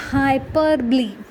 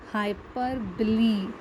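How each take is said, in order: First: Hyperbole as hy-PER-bo-lee, four syllables; teacher stresses hyperbole on its second syllable; pronounce hyperbole. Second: Hyperbole said slowly as hy-PER-bo-lee; slow careful pronunciation. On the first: Teacher shows class how to say hyperbole. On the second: Teacher models the whole word slowly for class. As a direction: spell out Hyperbole syllable by syllable, slowly. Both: Shown as a demonstration. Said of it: "That's the way you pronounce it".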